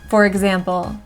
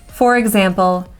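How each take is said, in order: Both takes have the same delivery.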